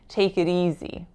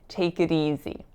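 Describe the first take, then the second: No difference in how they are said.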